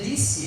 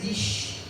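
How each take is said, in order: First: The word is said with a plain s sound. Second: The word is said with a hushing sh sound. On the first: "quando era para dizer disse" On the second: "Ele fica colocando um chiado"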